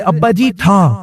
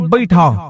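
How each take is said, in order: First: It is said slowly and clearly. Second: It is said very fast, slurred together.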